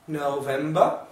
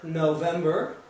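First: British accent with a soft R sound. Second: American accent with a strong R sound. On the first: "Olha como é que o britânico vai falar" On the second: "o americano vai pronunciar isso aqui basicamente como"

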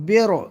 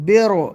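No difference in how they are said.

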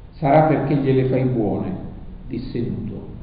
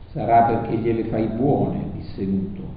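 No difference in how they are said.

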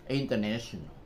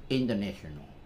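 First: It is said linked, with American English stress. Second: It is said linked, with American English stress.

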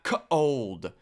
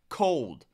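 First: The word is stretched into two syllables. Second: The word is said as one syllable. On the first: The speaker calls it wrong. "Why is it two syllables there" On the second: The speaker calls it right. "It's just one syllable"

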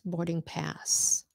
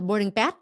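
First: The final S sound is clearly heard. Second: The final S sound is dropped. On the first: The speaker calls it right. "Let the S out" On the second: The speaker calls it wrong. "Why do you forget the S?"

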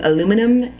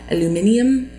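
First: The word has four syllables, ending in -num. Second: The word has five syllables, ending in -nium. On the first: The speaker calls it wrong. "as Americans, we mispronounce a lot of things. One of those things being aluminum" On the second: The speaker calls it right. "It is actually aluminium"

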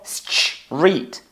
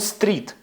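First: The s is followed by a ch sound. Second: The s is followed by a plain t sound. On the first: The speaker calls it right. "Ми кажемо стріт" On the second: The speaker calls it wrong. "Ми не кажемо стріт"

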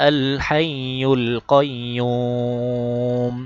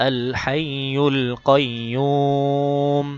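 The two takes are said the same way.

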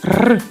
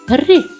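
First: The consonant is said hard, without softening. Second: The consonant is said soft, palatalized. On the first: "Перший братик вимовляв все твердо" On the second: "А другий звук – це м'який звук"

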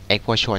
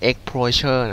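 First: It is pronounced with Thai-style sounds. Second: It is pronounced with English-style sounds. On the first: "อ่านแบบไทยนะ" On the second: "อากูบอกว่าเฮ้ยมันอ่านว่า"

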